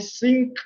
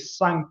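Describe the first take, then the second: First: The vowel is a short i-like sound. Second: The vowel is an open a-like sound. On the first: "with the I" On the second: "with the A"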